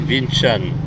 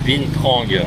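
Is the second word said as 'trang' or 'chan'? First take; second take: chan; trang. First: The second word is said as 'chan'. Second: The second word is said as written, 'trang'. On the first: This is how the name is actually said. The speaker calls it right. "en fait ça se dit Vin Chan" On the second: This is how the name is written. The speaker calls it wrong. "ça s'écrit Vin Trang"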